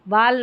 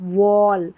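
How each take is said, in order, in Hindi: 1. स्वर खुला, बिना गोलाई वाला 'ah' है। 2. स्वर गोल 'aw' है। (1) "वाल नहीं"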